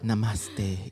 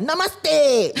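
First: It is said softly and peacefully. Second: It is said loudly and energetically.

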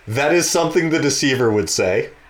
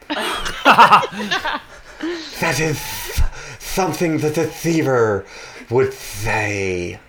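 First: It is said in the speaker's ordinary voice. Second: It is said in a put-on creature voice. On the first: "once in my normal voice" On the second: "then once as the Codal"

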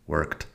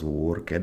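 First: The ending is just a t sound. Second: The ending is an extra syllable with a vowel. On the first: The speaker calls it right. "it's worked" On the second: The speaker calls it wrong. "porque no es worked"

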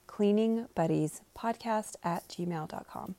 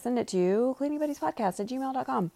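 First: It is said slowly. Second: It is said at normal speed.

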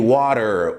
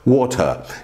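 First: The t is a quick r-like flap. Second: The t is a clear t sound. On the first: "Já o americano é water, quer dizer, o T tem som de R" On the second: "a maioria dos britânicos pronunciam water"

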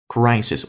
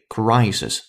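First: The first vowel is a gliding diphthong. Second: The same.

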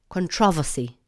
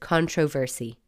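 First: The last part is squeezed into a 'vossy' sound. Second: Every part of the word is said as written. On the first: "The English have turned the last part of the word into vossy" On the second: "We here in Ireland are reading it for what it is"

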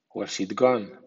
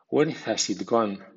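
First: The words are reduced and run together. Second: Every word is pronounced fully and carefully. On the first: "a continuación en versión informal o coloquial" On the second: "primero en estilo formal"

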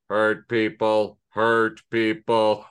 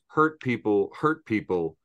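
First: It is said in a 1950s robot voice. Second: It is said in his normal voice.

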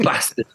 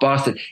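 First: It is said with a Northern English accent. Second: It is said with a Southern English accent.

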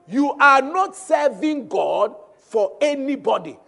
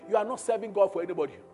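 First: It is said with a raised voice. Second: It is said at a normal volume.

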